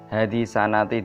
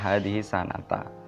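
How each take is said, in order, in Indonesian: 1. Kata terakhir berakhir dengan vokal 'i'. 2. Kata terakhir berakhir dengan vokal 'a'. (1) "dibaca kasroh" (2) "dibaca fathah"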